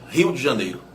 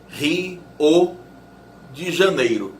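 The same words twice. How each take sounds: First: Rio ends in a glided 'u', one syllable. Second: Rio ends in a full 'o', two syllables. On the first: The final vowel becomes a semivowel in a diphthong. "se você pronunciar o O como U, ele vira semivogal" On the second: The final vowel is a full vowel, forming its own syllable. "se você falar o O como o, a palavra tem duas sílabas"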